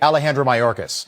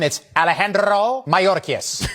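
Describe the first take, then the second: First: The name is said with plain English sounds. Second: The name is said with a Spanish accent.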